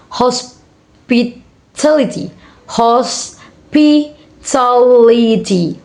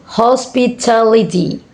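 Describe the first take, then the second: First: Hospitality very slowly, broken into beats; syllable by syllable. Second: Said in the usual way. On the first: Shown as a demonstration. Teacher showing five syllable word, syllable by syllable. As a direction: pause after each syllable of hospitality. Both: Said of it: "five syllable words".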